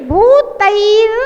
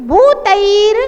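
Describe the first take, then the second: No difference in how they are said.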